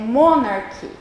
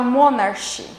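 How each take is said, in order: First: The middle sound is a hard 'k' sound. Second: The middle sound is a soft 'ch' sound. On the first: The speaker calls it right. "é monarchy. Então, ela tem som de K" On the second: The speaker calls it wrong. "eu não posso falar monarchy"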